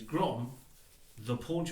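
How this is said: There is a pause after the first word. The speaker calls it right. "there should be a comma"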